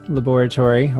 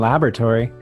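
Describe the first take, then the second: First: It is said with a British pronunciation. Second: It is said with an American pronunciation.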